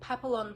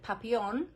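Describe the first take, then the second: First: The L sounds in the word are pronounced. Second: The L sounds in the word are silent.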